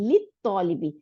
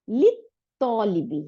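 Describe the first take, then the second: First: Said in the usual way. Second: লিত্তলিবি drawn out slowly, the লাম of আল silent; slow spelled-out demo. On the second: Shown as a demonstration. Teacher sounds out লিত্তলিবি slowly for the students, stretched. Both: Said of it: "লাম উচ্চারণ করব না".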